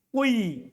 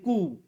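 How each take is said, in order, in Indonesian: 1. Vokal pertama adalah i dengan sedikit bunyi u. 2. Vokal pertama adalah bunyi u murni. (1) "Mencampurkan kasro dengan sedikit suara dhammah" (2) "Ikhlasu dhammil awal... Alifnya menjadi waw"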